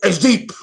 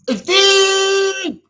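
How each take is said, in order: First: Said in the usual way. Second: A high, wailing cry of it; crying shout. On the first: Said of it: "repeats phrase building up". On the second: Acted. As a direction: throw it up high in a dramatic wail. Repeats phrase building to a cry.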